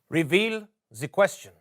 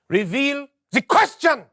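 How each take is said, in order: First: It is said with low energy. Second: It is said with high energy.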